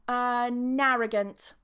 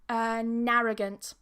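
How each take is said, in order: The two takes are said the same way.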